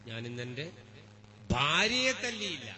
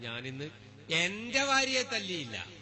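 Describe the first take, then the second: First: The stress is on ഭാര്യയെ. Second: The stress is on എന്റെ.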